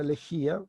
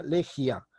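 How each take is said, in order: First: "lejía" with the stress on í, three syllables le-JÍ-a. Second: "legia" stressed on the first syllable, LE-jia; stress shifted to LE. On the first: Teacher showing the accented word, "lejía" stressed on í. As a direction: say "lejía" with the i and a kept apart. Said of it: "Si yo no tuviese tilde". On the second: Teacher showing it without the accent mark, "legia" as LE-jia. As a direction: run the final i and a of "legia" into one syllable. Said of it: "sonaría legia". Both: Shown as a demonstration.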